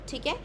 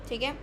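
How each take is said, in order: The two takes are said the same way.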